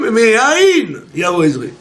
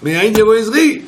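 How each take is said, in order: First: It is said with declarative, affirming intonation. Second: It is said with questioning intonation. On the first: The speaker is sure help will come from Ain. The speaker calls it right. "lis ça comme une affirmation" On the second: The speaker asks where help will come from. The speaker calls it wrong. "je demande d'où va me venir l'aide"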